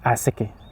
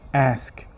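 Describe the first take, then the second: First: An extra vowel is added after the final sound. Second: The word ends cleanly without an added vowel. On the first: The speaker calls it wrong. "You cannot say asike" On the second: The speaker calls it right. "No, it's ask"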